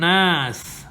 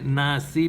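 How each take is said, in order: First: The word ends on the s, with no vowel. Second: The word ends with a short i vowel. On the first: The reciter is pausing at this word. The speaker calls it right. "because we're pausing here, so you drop the vowel" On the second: The reciting continues without a pause. The speaker calls it wrong. "we don't say nasi"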